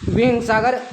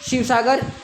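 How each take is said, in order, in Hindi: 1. नाम की शुरुआत h ध्वनि से होती है। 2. नाम की शुरुआत sh ध्वनि से होती है।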